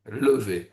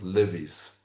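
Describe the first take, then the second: First: The word has a French pronunciation. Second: The word has an English pronunciation. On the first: The speaker calls it right. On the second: The speaker calls it wrong.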